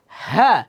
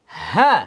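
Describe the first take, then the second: No difference in how they are said.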